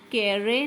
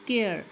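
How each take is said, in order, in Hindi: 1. आख़िरी e एक स्वर की तरह बोला जाता है। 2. आख़िरी e साइलेंट है। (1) "हम इसको केरे नहीं पढ़ रहे हैं" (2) "अब इसको हम केयर पढ़ रहे हैं"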